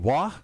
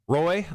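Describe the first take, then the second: First: The name is said the French-Canadian way. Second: The name is said the plain English way.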